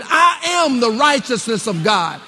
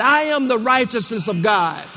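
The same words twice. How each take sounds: First: Emphatic, full-voiced declaration; preacher modelling a bold confession; like you mean it. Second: Said in the usual way. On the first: Shown as a demonstration. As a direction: declare it with total conviction. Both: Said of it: "Say it like you mean it".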